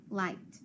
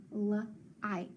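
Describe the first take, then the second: First: Said in the usual way. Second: "light" slowly split into L, long I, T; sounded out. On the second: Shown as a demonstration. Teacher sounding out a word for pupils, sounded out. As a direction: separate the sounds of "light" with gaps. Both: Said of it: "make that I long".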